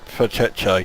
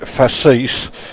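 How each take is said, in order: First: The name is said with a 'cheche' ending. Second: The name is said so it sounds like 'feces'. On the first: "I do genuinely think that's how it's pronounced" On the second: "it looks awfully like feces. So I'm not going to call it facis"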